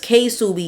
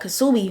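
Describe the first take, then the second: First: It begins with the letter name 'kay'. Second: It begins with a full 'ka' syllable. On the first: "It's K-Subi. ... y'all both pronouncing it wrong" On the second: "you pronouncing it wrong"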